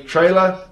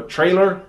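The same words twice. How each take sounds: First: "trailer" with no final R, like "tray-luh"; Kiwi pronunciation. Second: "trailer" with a sounded final R; American pronunciation. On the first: Kiwi's first try at the American word, R-less "trailer". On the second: Correcting to how Americans say it, R-coloured "trailer". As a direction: say "trailer" ending in a hard American "er". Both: Shown as a demonstration. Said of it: "Americans say trailer or trailer".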